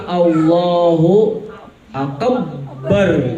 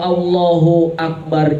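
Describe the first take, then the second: First: The b in Akbar is doubled and held. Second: The b in Akbar is short and plain. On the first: The speaker calls it wrong. "ba-nya di, dikasih tasjid" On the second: The speaker calls it right. "Allah Maha Besar"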